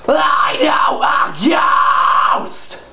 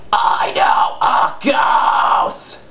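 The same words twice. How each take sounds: First: It is said with a loud yell. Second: It is said softly without yelling.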